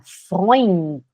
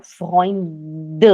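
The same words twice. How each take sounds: First: Freund with a clear N before the final T; sounded N. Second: Freund ending in a voiced "duh"; wrong final D. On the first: Teacher naming the word students attempt, Freund with sounded N. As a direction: keep the N in Freund. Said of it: "é importante você falar o N". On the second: German teacher showing students what not to say, wrong voiced final D. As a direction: say Freund with an added D-vowel at the end. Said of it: "A gente não fala". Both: Shown as a demonstration.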